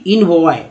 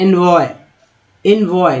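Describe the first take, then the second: First: "इनवॉय" starting with in; slow counterexample "इनवॉय" with a short i; wrong pronunciation. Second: "एनवॉय" starting with en; correct pronunciation. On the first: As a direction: misread "इनवॉय" as IN-voy, slowly. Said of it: "ना कि इनवॉय". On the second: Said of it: "उच्चारण ऐसे हो रहा है". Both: Shown as a demonstration.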